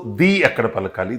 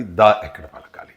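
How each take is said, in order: First: ది pronounced "dee" at the head of the phrase. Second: దా pronounced "daa" at the head of the phrase; "the" as "duh". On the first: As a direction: say ది with an ee vowel. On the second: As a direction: say దా with an open a vowel. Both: Shown as a demonstration.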